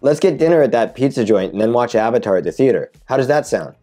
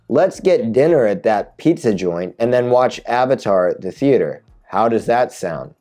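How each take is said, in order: First: It is read at natural conversational speed. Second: It is read slowly and carefully.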